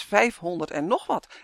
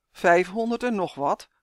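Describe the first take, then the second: First: Said in the usual way. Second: Disbelieving echo of a number; taken aback, doubting repeat; incredulous. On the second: A narrator's reading. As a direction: question it in mild disbelief. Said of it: "riep Justin ongelovig".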